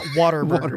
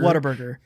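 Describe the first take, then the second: First: The first part is said as a full 'what'. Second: The first part is reduced and blended into the name. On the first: The speaker calls it wrong. "It's not Whataburger. ... You don't say what" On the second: The speaker calls it right. "It's Whataburger"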